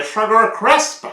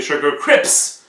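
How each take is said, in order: First: "Sugar Crisp" said slowly and high, S before P, "crisp"; slow, emphatic correct "Crisp". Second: "Sugar Crips" with the P said before the S, kreeps; "Crips" said with the sounds swapped, P then S; wrong Sugar Crips. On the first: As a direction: correct it firmly: "Crisp", S then P. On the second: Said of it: "Il y en a qui disent". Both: Shown as a demonstration.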